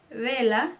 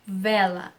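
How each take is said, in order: First: Vela with a Spanish B sound, "bela". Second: Vela with a buzzing Portuguese V; V as true V. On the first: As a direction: start vela on a B, lips together. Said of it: "ele vai ser pronunciado como B". (V com som de B em vela) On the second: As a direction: start vela with teeth on lip, a clear V. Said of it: "não vela". (V de verdade em vela, à portuguesa) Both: Shown as a demonstration.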